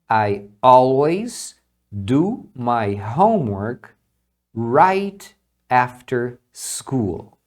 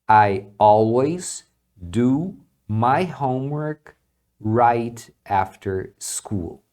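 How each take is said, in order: Both takes have the same delivery.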